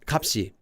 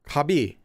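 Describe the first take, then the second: First: The middle sound is a p then s. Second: The middle sound is a soft b sound. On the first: The speaker calls it right. "No, no, no. It's kapsi" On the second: The speaker calls it wrong. "I've heard kapsi pronounced like kabi"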